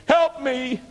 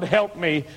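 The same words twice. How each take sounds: First: A mock cry climbing high in panic; retold scream for help. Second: First plea, close to his own voice; an understated plea, not yet screaming; retold cry for help. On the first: Under the truck wheels, crying to God, pitched high. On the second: Pinned under the log truck, a mild first cry for help. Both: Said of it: "And I screamed".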